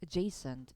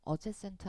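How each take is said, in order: First: The first vowel is a weak schwa sound. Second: The first vowel is a full, clear vowel. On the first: The speaker calls it right. "앞에는 강세가 없기 때문에 이 슈아 발음입니다" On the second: The speaker calls it wrong. "adjacent 아니에요"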